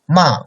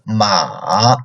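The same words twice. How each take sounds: First: The pitch falls downward. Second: The pitch stays very low. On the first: "fourth tone, like downcoming tone" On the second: "Third tone, lowest"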